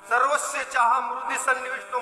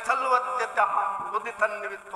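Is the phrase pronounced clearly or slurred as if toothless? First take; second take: clearly; slurred. First: The words are pronounced clearly with normal consonants. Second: The consonants are slurred like a mouth without teeth. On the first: This is the intended recitation. "म्हणाले" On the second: An old person without teeth is reciting it. "दात नसतात तोंडात श्लोक म्हणाय गेलं तर दुसरंच उच्चार होतो"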